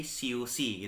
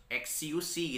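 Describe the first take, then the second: First: "siusi" begun with a plain s, no eks; correct S reading. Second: "X U C" said as eks-iu-si; wrong X reading. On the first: Teacher correcting the X reading, plain s. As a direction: say "siusi" starting straight on s. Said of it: "bukan, tapi siusi". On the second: Teacher showing what not to say, literal eks. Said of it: "bukan menjadi". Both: Shown as a demonstration.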